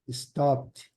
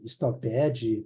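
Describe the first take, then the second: First: The -ed ending adds no extra syllable. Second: The -ed ending is sounded as an extra syllable. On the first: The speaker calls it right. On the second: The speaker calls it wrong.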